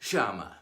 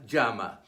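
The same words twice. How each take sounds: First: The word is said in an Argentine Spanish accent. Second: The word is said in a widespread Spanish accent. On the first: "Argentina and Uruguay" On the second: "Many parts of Spain and Latin America"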